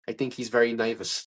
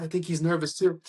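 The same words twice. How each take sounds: First: Low, lightly voiced confidential aside; Richard Kind. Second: Said in the usual way. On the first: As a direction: lean in with a low, mild impression. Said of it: "Richard Kind leans into me, and he goes". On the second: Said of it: "I was like".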